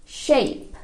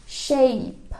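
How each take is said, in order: Both takes have the same delivery.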